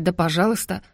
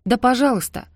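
First: Said in the usual way. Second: "да пожалуйста" flung out higher with a falling end; shouted out. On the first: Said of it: "выкрикнула". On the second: A narrator's reading. Teen daughter shouts at her family: "да пожалуйста", defiant. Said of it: "выкрикнула она".

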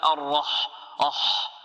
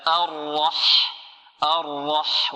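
First: الرح said faultily, ending echoed as أح; wrong pronunciation. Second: الرح drawn out with heavy ر and clear ح; correct articulation. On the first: Teacher warns students what not to say, faulty الرح. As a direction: demonstrate the mistaken الرح, isolating its ending أح. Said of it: "هذا خطأ". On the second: Teacher models الرح for students, correct slow articulation. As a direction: say الرح slowly, heavy R then a clean breathy ح. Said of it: "هكذا". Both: Shown as a demonstration.

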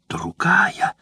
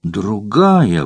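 First: A higher, mock-furious cry; furious exclamation. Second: Understated fury. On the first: Jealous courtesan raging at her rival, higher cry. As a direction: spit the word out in jealous rage. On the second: Acted. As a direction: drop it down, bitterly final. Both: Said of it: "воскликнула она в ярости".

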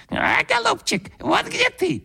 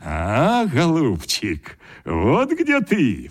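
First: Very high squeaking bird voice; a bird's beak mocking the grandfather, very high squeak; squeaky bird beak. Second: Slow, triumphant exclamation; exclaiming. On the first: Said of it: "запищал птичий нос". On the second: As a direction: savour the find, drawn out. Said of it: "вскрикнул дед". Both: A narrator's reading.

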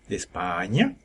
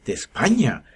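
First: Lilting question with rising end; singsong child. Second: Startled echo, pitch swelling then falling; old man repeating. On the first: Boy answering the cart driver, singsong rise. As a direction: sing it out lightly like a boy. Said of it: "canturrió el niño". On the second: Old driver repeats the boy's answer, surprised echo. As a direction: echo it back as a taken-aback old man. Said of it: "repitió el viejo". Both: A narrator's reading.

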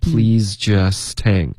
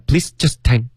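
First: "Please just hang" slow, linked together; slow and smooth. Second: "please just hang" word by word; choppy. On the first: Shown as a demonstration. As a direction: glide through "Please just hang" slowly. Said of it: "这样，OK". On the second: Retold or imitated. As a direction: chop "please just hang" into separate beats. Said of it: "太一字一顿了".

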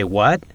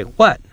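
First: Puzzled What? with a rising tune; unsure what. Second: What? jumps high and louder, falling; eager What? pitched high then dropping; curious what. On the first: Asking a friend to repeat, rising What?. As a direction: ask What? as if you missed it. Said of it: "Unsure if you heard clearly". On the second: Friend has an idea, keen to hear it, high falling What?. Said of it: "want to know what idea he has". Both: Shown as a demonstration.

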